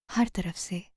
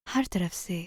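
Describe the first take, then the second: No difference in how they are said.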